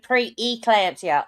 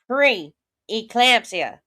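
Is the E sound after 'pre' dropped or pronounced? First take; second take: dropped; pronounced. First: The E sound after 'pre' is dropped. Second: The E sound after 'pre' is clearly pronounced. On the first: The speaker calls it wrong. "she always says preeclampsia instead of pre-eclampsia" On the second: The speaker calls it right. "You've got to pronounce that E"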